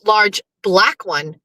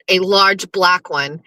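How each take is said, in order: First: "large black one" drawn out slowly, large stressed; slow emphasis on large. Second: "A large black one" said slowly with weight on "large"; stress on large, slow. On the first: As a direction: stretch out "large" and land it. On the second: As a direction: savor "large" for the clip. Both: Shown as a demonstration. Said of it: "Clip that".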